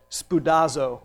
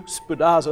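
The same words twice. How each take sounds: First: Spoudazo said slowly as spoo-DAH-zo; Greek word spoudazo. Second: Spoudazo repeated with relish, spoo-DAH-zo. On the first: Preacher teaching the congregation a Greek word, spoo-DAH-zo. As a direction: sound out Spoudazo, stress the middle DAH. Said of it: "a fun one to say". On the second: Preacher savouring the Greek word, spoo-DAH-zo. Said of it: "sounds like something we should say". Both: Shown as a demonstration.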